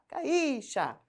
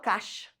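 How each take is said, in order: First: The i sounds clearly as its own vowel. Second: The i glides quickly into the a. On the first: "porque daí eu escutei o i" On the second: "O meu I parece? Não"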